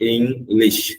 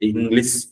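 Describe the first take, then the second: First: The final 'ish' sound is strong and clear. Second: The final 'ish' sound is weak and unclear. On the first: The speaker calls it right. "It has to be very clear" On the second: The speaker calls it wrong. "English இல்ல"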